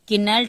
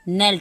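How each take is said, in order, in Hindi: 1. इसकी शुरुआत k ध्वनि से होती है। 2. इसकी शुरुआत n ध्वनि से होती है। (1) "दिखने में लग रहा होगा आपको" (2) "लेकिन ये नेल्ट पढ़ा जाएगा"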